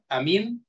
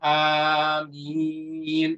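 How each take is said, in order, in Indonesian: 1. Kedua vokal itu pendek. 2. Kedua vokal itu panjang. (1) "hamzahnya tidak ada mad, mimnya tidak ada mad" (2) "dibaca panjang hamzahnya dan dibaca panjang mimnya"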